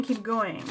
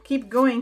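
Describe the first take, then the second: First: Said in the usual way. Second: "Keep going" said louder, pushed out. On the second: Real, not acted. Reader passing on what the spirits yell to pile three, loud. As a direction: call out "Keep going" as if spirits are yelling it. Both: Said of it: "guys yelling at me".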